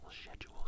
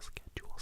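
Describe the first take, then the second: First: The word begins with a soft sh sound. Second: The word begins with a hard k sound.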